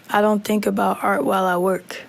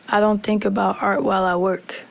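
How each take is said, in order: The two takes are said the same way.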